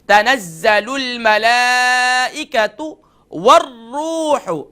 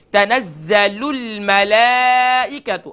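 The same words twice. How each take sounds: First: تنزل الملائکۃ with a short hamza and short ta; slow melodic chant, vowels kept short; correct recitation. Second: تنزل الملائکۃ with the hamza drawn out; slow, the hamza in الملائکۃ stretched long; wrong reading. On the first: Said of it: "short sound ہوگا". (درست تلاوت، ہمزہ short) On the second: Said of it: "غلط پڑھتے ہیں". (غلط تلاوت، ہمزہ کھینچ کر) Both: Shown as a demonstration.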